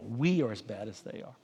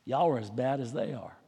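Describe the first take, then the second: First: We stressed as the correction of Y'all, a touch softer; We said with gentle emphasis, self-including. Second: Said in the usual way. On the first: Shown as a demonstration. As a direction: hit the word We to include yourself. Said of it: "let me say, we". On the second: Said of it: "y'all plural".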